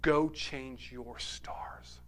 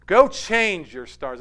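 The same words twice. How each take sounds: First: Slow, breathy whisper of a father; hushed whisper. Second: Slow and firm, leaning on Go; emphatic repeat. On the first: Father kneeling, whispering to his son slowly. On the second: Father urging his son, slow and firm. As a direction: say Go change your stars with weight on Go. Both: Retold or imitated. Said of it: "grabs hold of his son and says".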